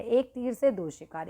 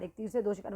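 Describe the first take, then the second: First: Idiom read out slowly as a heading; slow, deliberate reading of एक तीर से दो शिकार; slow announcing. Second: Said in the usual way. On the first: Shown as a demonstration. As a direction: lay the idiom out slowly, word by word.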